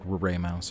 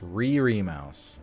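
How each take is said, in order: First: The first part is said like 'ray'. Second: The first part is not said like 'ray'. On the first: The speaker calls it right. "I think it's like Ray Mouse or something" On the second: The speaker calls it wrong. "I know that's not how it's supposed to be said"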